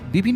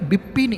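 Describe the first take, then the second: First: The name is said plainly, with no special emphasis. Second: The first sound, 'p', is strongly emphasized. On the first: The speaker calls it wrong. "মানে ঠিক বিপিন না" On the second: The speaker calls it right. "এমনি করে পয়ে জোর দিয়ে"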